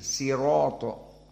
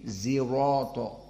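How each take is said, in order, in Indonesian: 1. Kata ini diawali dengan bunyi s. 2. Kata ini diawali dengan bunyi z. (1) "sebagian diganti dengan sin" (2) "dan shad diganti dengan zai"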